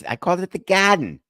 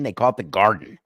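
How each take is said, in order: First: "Garden" as "Gahden" in a Boston accent, pitched up. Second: Said in the usual way. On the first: Shown as a demonstration. Host defending his word to his producer, Boston accent. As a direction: drop the R in "Garden", Boston style. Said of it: "trying to do my Boston accent".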